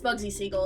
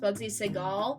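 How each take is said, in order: First: The surname is said like Siegel. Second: The surname is said like Seagal. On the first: The speaker calls it right. "It's pronounced the way that it's spelled, which is Siegel" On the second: The speaker calls it wrong. "I thought that his name was Seagal. It was pronounced Bugsy Seagal, um, but it's not"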